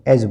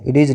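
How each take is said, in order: First: The d is silent, blending into one sound. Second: The d is pronounced as a separate sound. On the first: The speaker calls it right. "डी silent होता है, एज बोलेंगे" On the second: The speaker calls it wrong. "इडीज नहीं पढ़ेंगे इसको"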